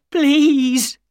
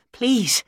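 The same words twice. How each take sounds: First: Please cried out, much higher and louder; desperate cry. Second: A high, begging please; pleading. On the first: Ryder at Holmes's feet cries out please, desperate wail. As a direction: wail please as the begging breaks loose. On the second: Ryder on the floor begs Holmes, high begging please. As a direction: say please as a thin, high plea. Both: A narrator's reading. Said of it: "cried Ryder".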